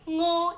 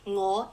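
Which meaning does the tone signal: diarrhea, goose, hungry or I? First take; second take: diarrhea; I. First: Its tone gives the meaning 'diarrhea'. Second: Its tone gives the meaning 'I'. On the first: It refers to a stomach upset. "is diarrhea" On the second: It refers to oneself. "is I"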